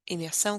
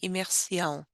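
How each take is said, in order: First: The word has no extra i sound. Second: An extra i sound is added to the word. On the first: The speaker calls it right. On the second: The speaker calls it wrong.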